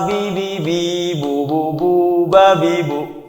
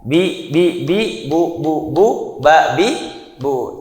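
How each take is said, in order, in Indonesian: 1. Suku kata terakhir dipanjangkan. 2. Setiap suku kata pendek, termasuk yang terakhir. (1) "dipanjangkeun nu mana tungtung" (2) "dibacana kedah pendek we, saharokat"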